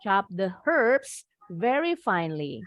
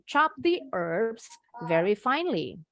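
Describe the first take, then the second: First: British accent, with the h in herbs sounded. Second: American accent, with a silent h in herbs.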